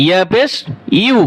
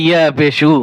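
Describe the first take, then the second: First: "ইউ" said like the English letter U; the right way, glide into "ইউ". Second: "উ" said as a bare u without the y glide; the wrong way, plain "উ" after ইয়া পেশ; wrong u ending. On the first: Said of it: "যে ইউ অক্ষর আছে". ("ইউ" ইংরেজি ইউ অক্ষরের মতো) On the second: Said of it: "অনেকে পরে". ("উ" ইয়া ছাড়া ভুল উচ্চারণ) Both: Shown as a demonstration.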